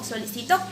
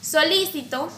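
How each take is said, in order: First: The stress is on the fourth syllable. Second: The stress is on the second syllable.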